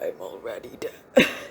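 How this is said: It is said in a put-on monster voice.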